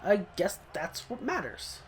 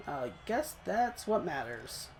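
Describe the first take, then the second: First: Said in the usual way. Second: Softer, slower, half to himself; resigned mutter. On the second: Real, not acted. Gamer consoling himself after missing a sack, slow quiet mutter. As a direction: settle for it quietly, slowly.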